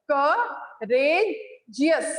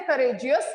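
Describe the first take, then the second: First: Courageous very slowly in three separate parts, cou, ra, geous; courageous pulled apart sound by sound for pupils; broken into syllables. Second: Said in the usual way. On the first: Shown as a demonstration. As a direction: pause clearly between each syllable of courageous. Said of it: "break करके बोला है". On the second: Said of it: "Now when I say courageous".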